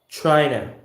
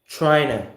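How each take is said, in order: The two takes are said the same way.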